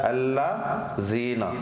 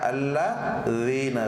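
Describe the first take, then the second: First: The z sound is pronounced hard and heavy. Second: The z sound is pronounced soft and light. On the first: The speaker calls it wrong. "ज़ा सख्ती वाली" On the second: The speaker calls it right. "ज़ा नरमी से पढ़ी जाती है"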